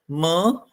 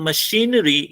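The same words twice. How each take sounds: First: "Ma-shi-na-ry" in four separate beats with pauses; syllable by syllable. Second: Said in the usual way. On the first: Shown as a demonstration. Teacher showing students four syllables, "Ma-shi-na-ry" fully broken up. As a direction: pause after each part: "Ma", "shi", "na", "ry". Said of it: "so how will you pronounce?". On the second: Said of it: "if you concentrate".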